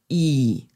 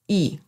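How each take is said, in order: First: The syllable is said with the third tone. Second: The syllable is said with the neutral tone. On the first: "der dritte Ton" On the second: "der neutrale Ton"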